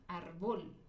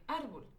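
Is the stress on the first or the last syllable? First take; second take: last; first. First: The stress is on the last syllable. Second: The stress is on the first syllable. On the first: The speaker calls it wrong. "si yo le pusiera el acento en la última sílaba, diría" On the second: The speaker calls it right. "Si yo lo pongo en la penúltima sílaba, diría"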